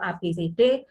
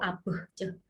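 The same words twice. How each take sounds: First: Each letter is said as its full name. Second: Each letter is said as a short bare sound. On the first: These are the names of the letters. "nama huruf itu" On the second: These are the sounds the letters make. "fonem itu"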